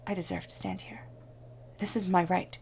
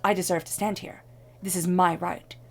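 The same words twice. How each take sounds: First: It is said with calm, gentle energy. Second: It is said with forceful, demanding energy.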